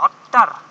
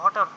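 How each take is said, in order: First: The t sound is long and doubled. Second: The t sound is short and single. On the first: The speaker calls it wrong. "অ্যারাবিকে যদি উচ্চারণ করে তাহলে কিভাবে করতে জানো" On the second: The speaker calls it right. "এটা বলে দেবো হটার"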